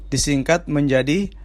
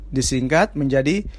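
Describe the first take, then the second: Both takes have the same delivery.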